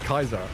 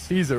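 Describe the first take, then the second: First: The word begins with a hard K sound. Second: The word begins with a soft S sound. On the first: This is how the original Latin was pronounced. The speaker calls it right. "they had the hard C" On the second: This is the commonly accepted later pronunciation. The speaker calls it wrong. "It wasn't Caesar"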